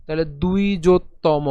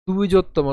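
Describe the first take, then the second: First: দুই জোত্তম split into দুই and জোত্তম; syllable-by-syllable দুই জোত্তম; broken into syllables. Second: Repeated দুই জোত্তম, careful. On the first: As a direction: split দুই জোত্তম into two clear parts. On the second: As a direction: model দুই জোত্তম for the class. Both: Shown as a demonstration. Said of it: "একে যদি ভেঙে করি".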